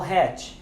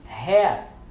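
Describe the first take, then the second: First: The final T is clearly pronounced. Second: The final T is left silent. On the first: The speaker calls it wrong. "não hat" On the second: The speaker calls it right. "Nós queremos pronunciar o T, mas não pronunciamos"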